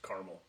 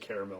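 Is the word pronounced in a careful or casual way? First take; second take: casual; careful. First: The word is given a shorter, more casual pronunciation. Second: The word is given a fuller, more careful pronunciation. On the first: The speaker is an ordinary person. "Us high schoolers are just caramel" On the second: The speaker is educated. "You have to have a degree to say caramel"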